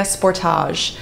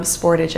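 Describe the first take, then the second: First: Sportage with a long, French-style ending; Sportage, rhyming its end with garage; first pronunciation guess. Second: Sportage with a short, English-style ending; Sportage, ending lightly like porridge; corrected pronunciation. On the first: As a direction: say Sportage as spor-TAHZH. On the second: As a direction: say Sportage as SPOR-tidge. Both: Shown as a demonstration. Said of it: "I guess they call it".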